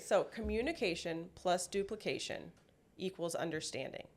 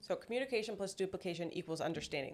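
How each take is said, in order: First: It is said more slowly. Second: It is said at a normal pace.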